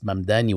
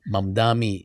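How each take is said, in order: First: The last syllable begins with an N sound. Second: The last syllable begins with an M sound. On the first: The speaker calls it right. "with an N" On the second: The speaker calls it wrong. "recurring way of saying his name"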